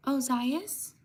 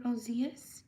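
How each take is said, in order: First: "Ozias" as oh-ZYE-us, rising at the end; first pronunciation. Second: "Ozias" as oh-ZEE-us, rising at the end; alternative pronunciation. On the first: Streamer guessing a subscriber's name, "Ozias" said oh-ZYE-us. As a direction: say "Ozias" with a long eye in the middle. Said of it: "or Ozias". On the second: Streamer offering another reading of a subscriber's name, "Ozias" said oh-ZEE-us. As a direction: say "Ozias" with an ee in the middle. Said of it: "Sorry if I mispronounce your name". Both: Shown as a demonstration.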